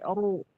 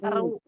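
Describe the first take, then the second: First: The r is thick, with rounded lips. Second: The r is thin, with spread lips. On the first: The speaker calls it right. "tapi oru" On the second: The speaker calls it wrong. "jangan eru"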